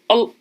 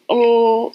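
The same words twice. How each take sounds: First: The sound is cut off with a stop. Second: The sound is held smoothly without a stop. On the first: "it's kind of like a stop" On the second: "instead of O"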